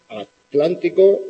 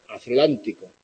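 First: Atlántico slow, clear T, tl kept together; correct T. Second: Atlántico with the T turned into a Z sound, θlántico; wrong Z sound. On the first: Teacher models the correct atlántico slowly. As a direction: draw out atlántico with a crisp T. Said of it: "Se puede pronunciar en una unisílaba". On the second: Teacher demos the wrong lisped T in atlántico. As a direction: say atlántico lisping the T like a Spanish Z. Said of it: "tampoco hay que convertirla en Z". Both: Shown as a demonstration.

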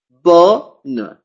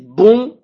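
First: BONNE split, long oral O then N; oral O, separate N. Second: BON with nasal vowel and no N; wrong nasal version. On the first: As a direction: say BONNE as BO, pause, released N. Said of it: "sino como O y N". (BONNE separado, O oral y N sonora) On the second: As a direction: nasalise BON, swallowing the final N. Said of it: "No voy a decir bon". (BON nasal, sin pronunciar la N) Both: Shown as a demonstration.

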